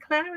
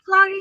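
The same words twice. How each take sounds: First: Said in the usual way. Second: Clary in two syllables, final E sounded; mistaken pronunciation. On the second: Retold or imitated. Co-host defends the mispronounced name, Clary with sounded E. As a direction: say Clary with an ee ending. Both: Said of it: "It's a silent E".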